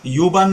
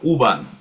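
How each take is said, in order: First: The word begins with a 'you' sound. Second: The word begins with an 'oo' sound. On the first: The speaker calls it wrong. "त्याला यू बान नाही म्हणत" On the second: The speaker calls it right. "ते ते म्हणतात उ बान"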